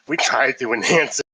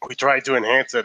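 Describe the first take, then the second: First: It is said in a condescending, talking-down tone. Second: It is said in a plain, matter-of-fact tone.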